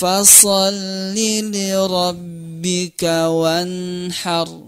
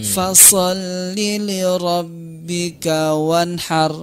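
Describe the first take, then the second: First: It is read at a natural, even pace. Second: The final word is snatched too quickly. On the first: The speaker calls it right. "Jadi natural saja seperti biasa" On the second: The speaker calls it wrong. "terlalu cepat ngambilnya"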